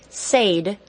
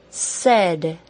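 First: The vowel is a long A, as in say. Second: The vowel is a short E, as in bed. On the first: The speaker calls it wrong. "Please do not say the word said with a long A" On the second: The speaker calls it right. "I hope you said it is the short E"

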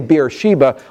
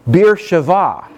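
First: The last syllable starts with a B sound. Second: The last syllable starts with a V sound. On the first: The speaker calls it wrong. "When we say Beersheba" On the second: The speaker calls it right. "a more appropriate Hebrew pronunciation would be Beersheva"

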